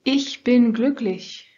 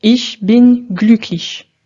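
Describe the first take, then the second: First: Ich bin glücklich with native German vowels; correct German. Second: Ich bin glücklich with French-accented vowels and flat stress; slow, French-flavoured Ich bin glücklich; French accent German. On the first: (allemand correct) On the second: (allemand avec accent français) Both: Shown as a demonstration. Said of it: "Essayez de reproduire la seconde prononciation".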